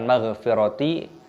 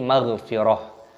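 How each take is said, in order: First: The word ends with a full ti syllable. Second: The word ends with a soft h sound. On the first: The speaker calls it wrong. "bukan maghfirati" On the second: The speaker calls it right. "tapi maghfirah"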